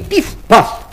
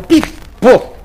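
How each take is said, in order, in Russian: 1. Во второй части гласная А. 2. Во второй части гласная О. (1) "ружье его стреляло не пиф-паф" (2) "а пиф-поф"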